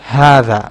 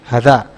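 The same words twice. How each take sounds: First: The first vowel is said as a long a. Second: Both vowels are said as short a sounds. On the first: The speaker calls it right. "But it's not pronounced like that. It's pronounced like this word" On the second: The speaker calls it wrong. "you see here is fatha, and here as well, you have fatha. So it should be pronounced like hadha"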